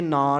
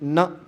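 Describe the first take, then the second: First: The word is said with a long vowel. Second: The word is said with a short vowel. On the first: The speaker calls it wrong. "ਇੱਥੇ ਨਾ ਨਹੀਂ ਬੋਲਣਾ" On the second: The speaker calls it right. "ਉੱਥੇ ਨ ਕਰਕੇ ਬੋਲਣਾ ਹੈ"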